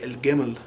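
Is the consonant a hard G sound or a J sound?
G sound. The word is said with a hard G sound. This is the Egyptian Arabic form. "they would say al gamal"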